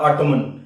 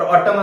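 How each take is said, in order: First: The word ends with an audible n sound. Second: The word ends without any n sound. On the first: "ऑटमन असं त्याचा उच्चार करतात" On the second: "थोडासा जरी silent केला ... ऑटम असा तुम्ही त्याचा उच्चार केला तरी चालेल"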